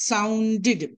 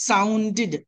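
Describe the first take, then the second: The two takes are said the same way.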